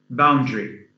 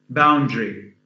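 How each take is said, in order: No difference in how they are said.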